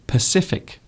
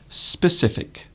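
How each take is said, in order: First: The word starts without an s sound. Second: The word starts with an s sound. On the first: The speaker calls it wrong. "Some people mispronounce that word" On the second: The speaker calls it right. "instead of specific"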